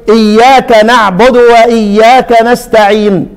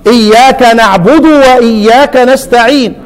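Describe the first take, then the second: First: Slow نعبد with the dal bounced toward a damma; echoed dal. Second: Slow نعبد with the dal plain and unbounced; correct recitation. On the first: Retold or imitated. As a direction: imitate the imam tilting the dal of نعبد to u. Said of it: "قلقل الدال فميلها إلى الضم". (نعبد بقلقلة الدال مائلة إلى الضم) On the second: Shown as a demonstration. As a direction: recite نعبد cleanly without echo on the dal. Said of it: "ما قالش نعبد". (نعبد بدال ساكنة بلا قلقلة)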